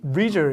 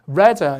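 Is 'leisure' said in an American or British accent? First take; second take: American; British. First: An American accent, first vowel like 'lee'. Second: A British accent, first vowel like 'leh'. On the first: "미국 가면 레저가 아니거든요. 이게 실제 발음이 리" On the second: "우리식하고 비슷한 건 역시 영국식"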